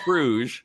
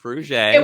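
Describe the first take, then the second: First: The name ends without a final 'ay' vowel. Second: The name ends with a final 'ay' vowel. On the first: The speaker calls it wrong. "It's not Fruge" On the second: The speaker calls it right. "fancy A at the end"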